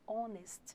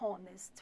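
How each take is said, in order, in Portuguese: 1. A palavra começa diretamente com um som de vogal. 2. A palavra começa com um som de h audível. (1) "fala honest" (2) "Não fala honest"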